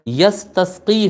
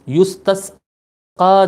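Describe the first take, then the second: First: The first syllable has a and ends in i. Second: The first syllable has u and ends in a. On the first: The clouds get their water through his face. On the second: The clouds are asked for rain through his face.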